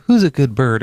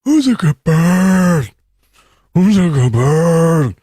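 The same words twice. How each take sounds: First: Light parrot squawk; chirpy pet-parrot imitation. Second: High, loud, slow eerie raven croak; haunting raven. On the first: Owner teaching a parrot to talk, mock chirpy. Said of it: "when you teach a parrot to say". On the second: Retold or imitated. Raven mimicking its owner, haunting and slow. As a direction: make it sound like a waking nightmare. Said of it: "like it's a nightmare".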